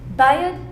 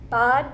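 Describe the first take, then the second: First: The vowel is tense, raised and drawn out. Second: The vowel is lax and not raised. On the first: This is how the oldest local speakers say it. "among like the older, the oldest folks, that would sound like" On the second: This is how very young speakers say it. "Or if you're really young"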